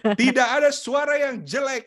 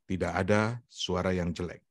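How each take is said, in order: First: The voice is at a high pitch. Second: The voice is at a normal pitch.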